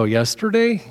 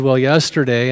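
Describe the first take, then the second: First: YESTERDAY pitched high in mock disbelief; incredulous echo. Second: Said in the usual way. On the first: Pastor questioning an angry husband's answer, incredulous YESTERDAY. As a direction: echo YESTERDAY back, voice leaping up.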